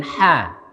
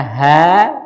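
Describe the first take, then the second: First: "ha" with a light ordinary Indonesian h; "ha" as the Arabic ه, a plain light h. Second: "ha" voiced as the Arabic letter ح with a forceful throat h; Arabic throaty ha. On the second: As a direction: push "ha" out hard from the throat like Arabic ḥa. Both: Shown as a demonstration. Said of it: "nggak bisa membedakan kalau pakai tulisan Indonesia antara".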